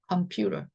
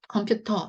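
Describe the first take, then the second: First: The t is softened toward an l-like flap. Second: The t is a strong, hard t sound. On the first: The speaker calls it right. "T 발음을 세게 하지 마시고 약간의 리을 발음으로 바꾸시면요" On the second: The speaker calls it wrong. "이거보다는"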